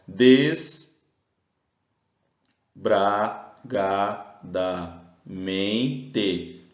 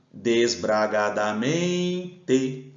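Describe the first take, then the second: First: "desbragadamente" very slowly with pauses between syllables. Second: "Desbragadamente" joined up, with a long held "men"; calling the word. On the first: Teacher separates the word on the board, "desbragadamente" in isolated syllables. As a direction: break "desbragadamente" into des, bra, ga, da, men, te. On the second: Teacher calls the word to find its stress, drawn-out "men" in "Desbragadamente". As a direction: call out "Desbragadamente", stretching the second-last syllable. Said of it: "Só chamar". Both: Shown as a demonstration.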